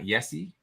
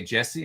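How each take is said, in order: First: Yessie with a Y sound at the start; the name Jesse turned into Yessie. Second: Jesse with an English J sound. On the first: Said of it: "and not Yessie". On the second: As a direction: say Jesse starting as in "jet". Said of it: "I'm gonna say Jesse". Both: Shown as a demonstration.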